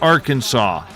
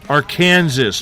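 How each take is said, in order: First: The final s sound is left silent. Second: The final s sound is clearly pronounced. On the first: The speaker calls it wrong. "not Arkansas" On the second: The speaker calls it right. "Pronounce that S"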